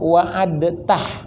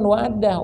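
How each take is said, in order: First: A distinct t follows the d sound. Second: The t merges into a doubled d sound. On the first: The speaker calls it right. "yang benernya" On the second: The speaker calls it wrong. "yang benernya bukan wa'addah"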